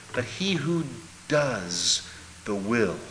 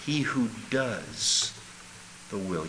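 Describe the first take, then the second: First: Said in the usual way. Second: He who does the will, slowly and deliberately; slow emphasis. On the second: Shown as a demonstration. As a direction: spell out each word slowly.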